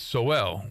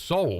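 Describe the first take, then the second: First: The name is said as two syllables, 'so-well'. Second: The name is said as one syllable, like 'soul'. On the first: The speaker calls it right. "but it's Sowell" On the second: The speaker calls it wrong. "mispronounced his name because I was told it was Soul"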